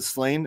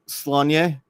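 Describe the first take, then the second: First: The name is said the common American way. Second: The name is said the original Gaelic way. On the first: The speaker calls it wrong. "everyone pronounces it Slane. Every dumb American" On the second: The speaker calls it right. "I think it's pronounced Slanye from the from the Gaelic"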